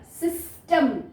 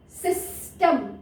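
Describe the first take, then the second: First: Said in the usual way. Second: system said slowly, each sound drawn out; slowly stretched system. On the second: Shown as a demonstration. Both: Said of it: "ई का sound देखिए".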